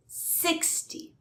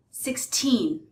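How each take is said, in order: First: "sixty" high on "six", soft weak "ty"; stress on SIX. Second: Put-on "sixteen" with long, stressed "teen". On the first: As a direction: lean on the start of "sixty". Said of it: "stress is on the first syllable". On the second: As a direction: lean on the end of "sixteen". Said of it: "the stress is on the teen". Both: Shown as a demonstration.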